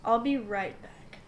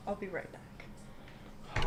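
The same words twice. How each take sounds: First: Said in the usual way. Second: Slow, soft whisper; hushed aside. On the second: Acted. Telling the others about leaving briefly, slow whisper. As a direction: draw it out under the breath. Same line repeated, hushed.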